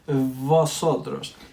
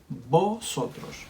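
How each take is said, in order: First: The first sound is an English-style V. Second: The first sound is like a B. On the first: The speaker calls it wrong. "we don't pronounce it like in English. So we don't say here vosotros" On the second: The speaker calls it right. "We pronounce it the same as the B. We say vosotros"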